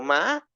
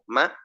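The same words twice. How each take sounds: First: The pitch is high. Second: The pitch stays at a middle level. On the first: "me voy a uno agudo" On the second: "me dejo en un sonido intermedio"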